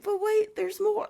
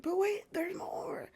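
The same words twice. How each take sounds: First: Much higher, much louder pitchman yell; Billy Mays shout. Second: High, unvoiced, slower whisper; whispered catchphrase. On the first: Retold or imitated. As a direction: blast it like a TV ad climax. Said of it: "And he's like". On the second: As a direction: hush it like a secret reveal. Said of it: "And then it's like".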